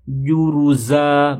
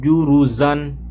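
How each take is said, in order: First: "Juruza" drawn out slowly, ending on an open a with no n; correct stop on the final a. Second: "juruzan" closed on an n, the wrong stop; wrong ending with n. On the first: ("Juruza" diucapkan pelan tanpa n di akhir) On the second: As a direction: show "juruzan" as the mistake. ("juruzan" dengan n di akhir, salah) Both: Shown as a demonstration. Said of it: "bukan juruzan".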